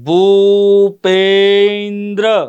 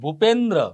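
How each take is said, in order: First: The word is said slowly, part by part. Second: The word is said at normal speed.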